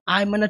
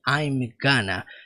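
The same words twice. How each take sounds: First: The phrase is squeezed into a subtle, shortened form. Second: Every sound of the phrase is clearly pronounced. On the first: The speaker calls it right. "É uma coisa muito mais sutil. Fica algo como" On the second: The speaker calls it wrong. "Ele não fala com todas as letras assim"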